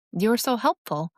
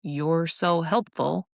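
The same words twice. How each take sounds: First: Said in the usual way. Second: Slow, drawn-out sarcastic praise. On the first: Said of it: "really means". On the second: Shown as a demonstration. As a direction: stretch SO and mean the opposite. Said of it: "here's why sarcasm".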